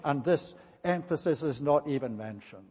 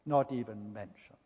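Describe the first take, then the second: First: Said in the usual way. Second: Much softer and lower, letting it sink in; hushed repeat. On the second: Real, not acted. Preacher quietly repeats the point to the congregation, hushed. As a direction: drop the voice as if in disbelief.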